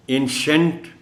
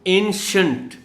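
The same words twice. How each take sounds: First: एंशंट with a full शेंट, rising; wrong shant. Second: एंशंट ending in a short शंट; ancient with shunt. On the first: Teacher mimics pupils' wrong एंशंट. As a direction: show the wrong एंशंट children say. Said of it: "कह जाएंगे बच्चे अगर उनको नहीं मालूम". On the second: Teacher models एंशंट with शंट ending. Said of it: "शंट की sound है". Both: Shown as a demonstration.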